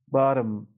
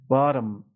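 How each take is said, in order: No difference in how they are said.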